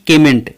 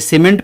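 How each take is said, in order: First: It begins with a 'k' sound. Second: It begins with an 's' sound. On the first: The speaker calls it wrong. "न कि केमेंट" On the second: The speaker calls it right. "इसे सीमेंट पढ़ेंगे"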